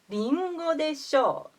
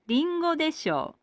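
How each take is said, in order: First: The pitch peaks on the syllable sho. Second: The pitch peaks on the syllable de. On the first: "The accent peak is on ro or sho" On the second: "The accent peak is on da or de. This is not correct according to the dictionaries"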